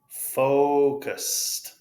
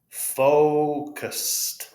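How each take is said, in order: No difference in how they are said.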